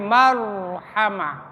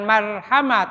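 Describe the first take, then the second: First: The r sound is heavy and full. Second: The r sound is light and thin. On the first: The speaker calls it right. "Bil marronya tafhim" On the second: The speaker calls it wrong. "jangan marhama"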